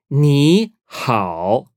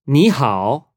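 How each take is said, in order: First: "Ni hao" split into two held syllables; "Ni", pause, "hao", each tone drawn out; slow teaching model. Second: Said in the usual way. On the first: Shown as a demonstration.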